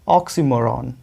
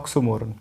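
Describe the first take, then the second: First: The second syllable has an 'ee' vowel. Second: The second syllable has an 'o' vowel. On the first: The speaker calls it right. "Correct उच्चारण यही है" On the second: The speaker calls it wrong. "कुछ लोग इसको बोलते हैं ऑक्सोमोरन"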